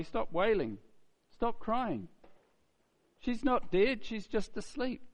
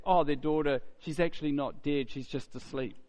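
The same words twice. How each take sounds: First: Higher, insistent reassurance; calm command. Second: A touch of scornful disbelief, trailing down; lightly mock the claim as the crowd would; mild mocking retelling. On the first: Acted. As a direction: tell the mourners firmly to stop. Jesus tells the mourners. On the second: Voicing the scoffing crowd.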